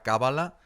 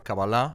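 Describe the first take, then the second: First: The word is pronounced the Spanish way. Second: The word is pronounced the Hebrew way. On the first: "en castellano de España te dirá Cábala" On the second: "en hebreo es Kabbalah"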